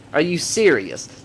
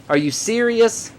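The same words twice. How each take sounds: First: Exasperated. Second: Higher and slow, in disbelief; incredulous. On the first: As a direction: let the repeat sink in tiredly. Repeats it, flatter and quieter. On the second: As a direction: ask it like you can't believe it. Incredulous at the Trayvon Martin case. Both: Real, not acted.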